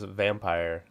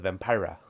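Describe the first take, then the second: First: It is said in a plain American way. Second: It is said imitating an actor's film pronunciation.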